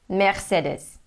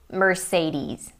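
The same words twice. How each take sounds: First: It is said with a German pronunciation. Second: It is said with an American pronunciation. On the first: "I'm going to try to say it in German" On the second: "in the U S they say Mercedes"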